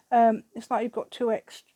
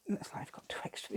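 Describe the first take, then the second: First: Louder, eager exclaim; getting carried away with delight; excited, carried away. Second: Hushed, breathy whisper to herself. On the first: Crafter marvels at the glued butterfly, louder and excited. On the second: Crafter repeats her remark about the butterfly in a whisper. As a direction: drop it to a private whisper. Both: Real, not acted. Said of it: "I'm getting carried away now".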